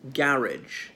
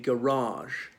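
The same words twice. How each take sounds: First: The stress is on the first syllable. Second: The stress is on the second syllable. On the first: "here's a very different pronunciation saying garage" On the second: "stress would be laid on the second syllable"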